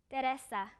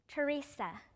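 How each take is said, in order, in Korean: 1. 이 이름은 스페인식으로 발음돼요. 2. 이 이름은 영어식으로 발음돼요. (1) "스페인어로는" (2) "영어로"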